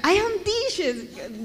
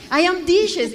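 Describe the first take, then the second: First: Very slow and higher, spelling it out word by word; slow, drawn-out repetition. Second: A louder, higher insistence on the wrong phrase; insisting loudly. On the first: To her puzzled adoptive father, drawn out slowly. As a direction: stretch every word so they finally get it. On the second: To her adoptive family, repeating her mistake, loud and insistent. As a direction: push the broken English harder so they understand. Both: Retold or imitated.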